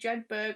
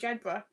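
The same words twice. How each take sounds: First: The ending is said fully, as it is spelled. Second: The ending is said short and reduced. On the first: This is how an outsider would guess it. The speaker calls it wrong. "you probably think it was like" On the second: This is how locals say it. The speaker calls it right.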